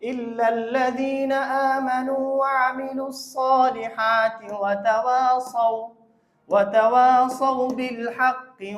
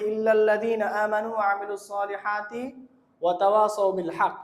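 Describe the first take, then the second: First: The breath pause comes after the word tawasaw. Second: The breath pause comes after the word haqq. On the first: The meaning of the verse is kept. The speaker calls it right. "আমরা থামবো হলো ওয়া তাওয়াসাউ" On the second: The meaning of the verse is changed. The speaker calls it wrong. "এখানে থামলে অর্থ পরিবর্তন হয়ে যায়।"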